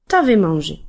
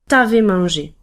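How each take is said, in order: First: The u is dropped, giving t'avais. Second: The same.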